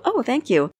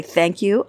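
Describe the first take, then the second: First: Higher, bright "Oh" falling into thanks; accepting a compliment with put-on delight; gushing thanks. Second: Said in the usual way. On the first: Shown as a demonstration. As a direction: gush a little over the compliment. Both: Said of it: "you might say".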